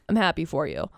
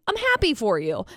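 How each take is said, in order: First: The voice is dull and low in energy. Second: The voice is lively and full of energy. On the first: The speaker does not seem to care. The speaker calls it wrong. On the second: The speaker is truly glad for the other person. The speaker calls it right. "if you're excited about something, say"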